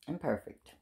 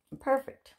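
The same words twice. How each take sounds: First: Quiet fall. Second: "imperfect" said high with a questioning rise; rising stress. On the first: To her children, "Imperfect" falling soft and final. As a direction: let "Imperfect" drop quietly. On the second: To her children, "imperfect" rising high. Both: Shown as a demonstration.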